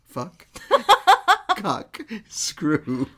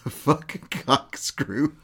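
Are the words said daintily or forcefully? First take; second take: forceful; dainty. First: The words are said loudly and forcefully. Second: The words are said softly and daintily. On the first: The speaker calls it right. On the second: The speaker calls it wrong.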